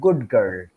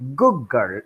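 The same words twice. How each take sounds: First: The final d of good is kept clearly. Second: The final d of good becomes a g. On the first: This is how it is said carefully and slowly. "when you pronounce very carefully and slowly" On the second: This is how it is said spontaneously. "Good girl instead of"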